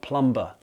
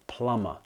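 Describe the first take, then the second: First: The B is sounded in the middle. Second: The B is silent in the middle. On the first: The speaker calls it wrong. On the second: The speaker calls it right.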